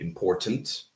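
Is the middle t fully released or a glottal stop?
released. The middle t is fully released. This is how someone from England says it. "Someone from England would probably say important"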